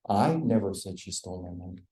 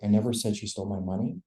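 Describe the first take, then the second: First: The stress falls on the word I. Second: The stress falls on the word money. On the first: "it's just emphasized it wasn't me" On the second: "if I change the pitch on the last word"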